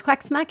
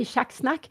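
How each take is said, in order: First: "quacksnack" said the Swedish way, higher-pitched; Swedish pronunciation. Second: "schacksnack" said the Norwegian way; Norwegian pronunciation. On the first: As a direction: say "quacksnack" as Swedes do, opening on a "hw" sound. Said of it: "I say it in Swedish". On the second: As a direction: say "schacksnack" as a Norwegian word, opening on a "sh" sound. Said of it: "in, in Norwegian". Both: Shown as a demonstration.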